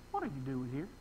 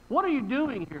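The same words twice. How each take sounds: First: Low, soft aside; quiet questioning as God. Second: Pointed question as God; emphatic questioning. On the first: God questioning Elijah in hiding, low and quiet. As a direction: drop low and soft, lightly voicing God. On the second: God confronting Elijah by name, emphatic questioning. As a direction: put the question squarely, in full voice. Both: Retold or imitated.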